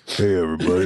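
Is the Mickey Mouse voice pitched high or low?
low. The Mickey voice starts lower down.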